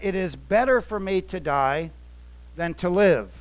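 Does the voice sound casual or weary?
casual. It is read in a plain, casual way.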